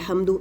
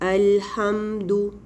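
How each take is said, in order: First: The m sound is rushed and barely held. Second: The m sound is held for a moderate time. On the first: The speaker calls it wrong. "बहुत जल्दी अल्हम्दु ऐसे भी नहीं पढ़ना, ये मीम अदा ही नहीं हुआ" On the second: The speaker calls it right. "इतना टाइम आपने उसको देना है"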